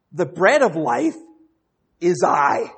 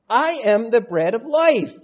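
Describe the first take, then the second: First: "life" lifted and held, then "I" landed loud; stress on final I. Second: "I" and "life" pushed high and loud; emphatic declaration. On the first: Shown as a demonstration. Preacher offering another translation of Jesus' words, punched final I. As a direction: pause before "is I" and punch the "I". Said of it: "as it could be translated". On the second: Retold or imitated. Preacher quoting Jesus explaining to the crowd, emphatic declaration. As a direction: declare it firmly, leaning on "I" and "life". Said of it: "He says, "Listen".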